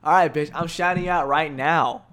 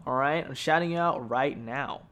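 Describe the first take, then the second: First: Loud shout-out. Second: Said in the usual way. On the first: Real, not acted. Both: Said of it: "Where's my shout out?".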